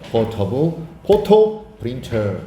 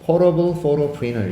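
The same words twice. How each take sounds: First: It is said in a British accent. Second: It is said in an American accent. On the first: "영국식에서는" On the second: "미국식에서는"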